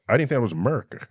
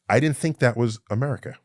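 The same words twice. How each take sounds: First: America is said in a Texan drawl. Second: America is said in a plain neutral accent. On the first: The speaker calls it right. "I know how to pronounce America" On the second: The speaker calls it wrong. "I didn't say that right"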